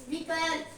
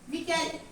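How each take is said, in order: Both takes have the same delivery.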